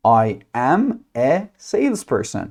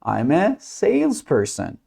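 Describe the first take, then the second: First: Slow, "I am" as two separate words; full uncontracted form. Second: Slow model answer with "I'm" run together; contracted form. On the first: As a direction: separate "I" and "am", word by word. Teacher models the full form. (شمرده، با "I am" کامل و جدا) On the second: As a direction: say "I'm" as one joined syllable, slowly. (شمرده، با "I'm" به شکل مخفف) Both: Shown as a demonstration.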